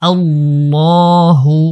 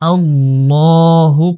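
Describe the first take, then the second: First: The L sound is heavy and full. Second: The same.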